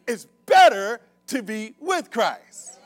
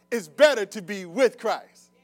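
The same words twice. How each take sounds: First: Loud, slow, word-by-word proclamation; emphatic preaching shout. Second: Louder call-out to draw a response; firm preaching prompt. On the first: Preacher trying the congregation once more, shouting slowly. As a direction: belt it out slowly, punching "better" and "with". Tries again for a response. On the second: Preacher trying one side of the congregation, firmly. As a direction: put it firmly to that side of the room. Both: Real, not acted.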